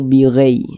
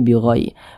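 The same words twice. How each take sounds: First: The vowel leans toward an 'e' sound. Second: The vowel is a soft, clear 'ai' glide. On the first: The speaker calls it wrong. "jangan sampai condong ke eh" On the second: The speaker calls it right. "Lunak saja mudah"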